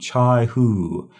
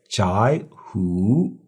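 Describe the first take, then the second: First: The first syllable has a low dipping tone. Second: The first syllable has a rising tone. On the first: "These are both third tone" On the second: "the first one changes to second tone. So we should say"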